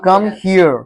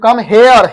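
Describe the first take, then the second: First: The word 'here' sounds like 'hear'. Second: The word 'here' sounds like 'hair'. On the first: The speaker calls it right. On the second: The speaker calls it wrong.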